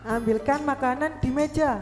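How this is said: It is said with a commanding exclamation tune. It orders someone to fetch the food. "itu berarti pakai tanda seru"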